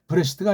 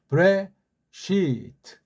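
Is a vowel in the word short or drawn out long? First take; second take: short; long. First: The vowels are said short and plain. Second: A vowel is drawn out long. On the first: "그냥" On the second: "길게 뽑아주는 거예요"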